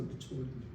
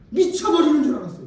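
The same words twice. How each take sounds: First: Much lower, much softer echo; hushed repeat. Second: Said in the usual way. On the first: Shown as a demonstration. Preacher echoing himself to congregation, hushed and low. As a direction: drop to a near whisper. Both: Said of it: "repeated take".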